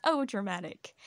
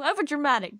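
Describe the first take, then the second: First: Said in the usual way. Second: Over dramatic said higher and louder, falling; emphatic over dramatic. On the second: Shown as a demonstration.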